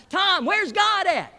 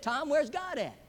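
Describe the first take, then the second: First: Loud, high, drawn-out holler. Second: A little higher, mildly insistent; slightly raised voice. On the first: Preacher hollering at silent Tom in his office, full holler. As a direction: bellow each word slowly at him. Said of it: "the preacher just hollers out". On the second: Preacher asking silent Tom a second time, slightly raised voice. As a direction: press the question a bit harder. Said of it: "raises his voice a little bit". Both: Acted.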